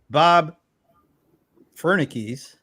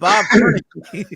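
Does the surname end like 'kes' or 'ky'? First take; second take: kes; ky. First: The surname ends with a 'kes' sound. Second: The surname ends with a 'ky' sound. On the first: The speaker calls it right. "you got it" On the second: The speaker calls it wrong. "I was calling him ... Bob Fernicky"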